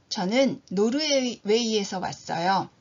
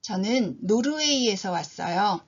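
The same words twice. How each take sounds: The two takes are said the same way.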